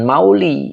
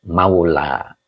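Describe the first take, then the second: First: The word ends with an 'i' vowel. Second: The word ends with an 'a' vowel. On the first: The speaker calls it wrong. "jangan mauli ya" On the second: The speaker calls it right. "karena di sini ada alif"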